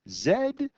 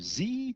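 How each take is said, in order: First: The letter is named the Canadian way, zed. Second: The letter is named the American way, zee.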